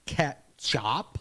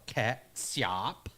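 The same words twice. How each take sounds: First: Ketchup said as "ketch-up" with a ch sound, rising; first old form. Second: Ketchup said slowly as "kat-sup" with an s sound; second old form. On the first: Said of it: "The name probably comes from". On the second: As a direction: ketchup drawn out slow, ts sound like catsup. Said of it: "or ketchup". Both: Shown as a demonstration.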